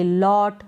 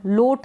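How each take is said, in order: First: लॉट with an open "aw" vowel; open-o pronunciation. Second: लोट with a closed "oh" vowel; wrong long-o reading. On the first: Teacher tells learners how to read it, open-o लॉट. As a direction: say लॉट as "lawt". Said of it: "इसको हम पढ़ेंगे". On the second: Teacher rules out a misreading, closed-o लोट. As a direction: say लोट as "loht". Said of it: "लोट नहीं पढ़ेंगे". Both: Shown as a demonstration.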